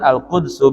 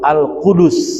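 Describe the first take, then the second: First: No vowel is heard between d and s. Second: A u vowel is heard between d and s. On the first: It is the lightened reading used to fit the pattern. "dibaca dengan sukun dal" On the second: It is the original reading with two dhammas. "asalnya di dalam Al-Misbah bacanya tuh Al-Qudus"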